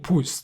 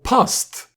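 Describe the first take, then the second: First: The vowel sounds like the one in 'pust'. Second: The vowel sounds like the one in 'past'. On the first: The speaker calls it wrong. "Why are we saying pust?" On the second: The speaker calls it right. "They are pronouncing it Iskaral past, and I think that makes sense"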